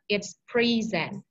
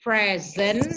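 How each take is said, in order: First: "present" said pri-ZENT, slow, stress on ZENT; slow pri-ZENT for "present", second syllable strong; verb present. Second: "present" said PREZ-ent, stress on PREZ; noun present. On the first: Teacher explaining the verb to the class: slow "present" as pri-ZENT. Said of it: "if it is a verb". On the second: Teacher giving the class the noun: "present" as PREZ-ent. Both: Shown as a demonstration.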